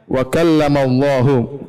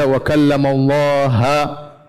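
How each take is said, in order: First: Allah ends with a 'u' vowel. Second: Allah ends with an 'a' vowel. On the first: God is the one who speaks. The speaker calls it right. "Padahal ayatnya wa kallamallahu" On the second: Moses is the one who speaks. The speaker calls it wrong. "mereka rubah uh, hurufnya dibaca"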